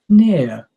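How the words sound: The syllables are said expressively, like meaningful speech. "say that as if it has real meaning"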